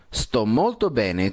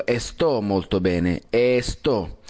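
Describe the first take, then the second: First: Sto said starting straight on s, no e; correct sto. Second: Sto said with an added e, esto molto bene; the Spanish habit of esto; wrong esto. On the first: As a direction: sto molto bene with no leading e. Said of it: "No hay la E". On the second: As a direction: sto with an extra e in front. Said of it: "deberíamos evitar es la de poner la E". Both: Shown as a demonstration.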